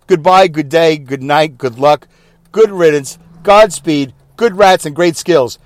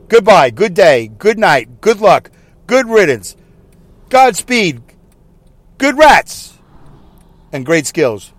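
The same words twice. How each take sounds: First: Drawn-out sign-off of eight farewells; mock announcer sign-off. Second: Slow, drawn-out string of farewells; mock announcer sign-off. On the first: Host mocking announcers' goodbyes, drawn-out farewell. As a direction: parody a newsreader's goodbye. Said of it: "I'm making fun of the whole goodbye thing". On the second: Host spoofing announcers' sign-offs, slow and drawn out. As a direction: spoof a radio announcer's goodbye. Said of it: "I'll do it one more time". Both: Shown as a demonstration.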